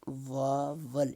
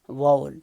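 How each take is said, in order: First: It is said with an Urdu-style pronunciation. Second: It is said quickly with reduced, merged syllables. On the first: "like Urdu vowel" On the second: "when we pronounce it quickly, it becomes vowel"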